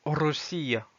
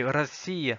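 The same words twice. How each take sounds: First: "Russia" said ro-SEE-ya with a clear o; wrong O pronunciation. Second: "Russie" said ra-SEE-ya, first vowel a; correct A pronunciation. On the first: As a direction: sound a full o in "Russia". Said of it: "et pas". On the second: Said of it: "c'est Russia et pas". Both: Shown as a demonstration.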